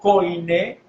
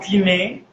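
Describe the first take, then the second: First: The first syllable sounds like 'koy'. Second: The first syllable sounds like 'kee'. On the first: The speaker calls it wrong. "mal dicho koiné" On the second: The speaker calls it right. "el griego quiné"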